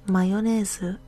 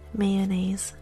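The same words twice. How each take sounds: First: It is said in a Japanese accent. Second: It is said in a native English accent. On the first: "in the Japanese accent" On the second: "first in English"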